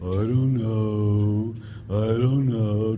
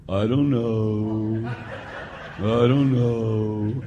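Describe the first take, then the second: First: Slow, low shrugging mumble; mumbled teen answer. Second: Put-on slow, low, laughing mumble of a shrugging kid; mumbled teen answer. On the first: Retold or imitated. Priest imitating students' shrug for the congregation, slow. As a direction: drawl it out, lazy and unsure. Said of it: "some of you are the same thing". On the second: Priest imitating students who can't answer, slow mumble. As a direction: drag it out like a clueless teenager. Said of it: "the number one answer ... is what?".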